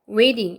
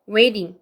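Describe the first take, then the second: No difference in how they are said.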